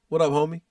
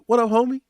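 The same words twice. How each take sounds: First: It sounds cool and merely acknowledging. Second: It sounds warm and excited.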